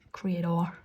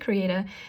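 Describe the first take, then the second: First: It is said with an Australian accent. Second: It is said with the speaker's usual accent.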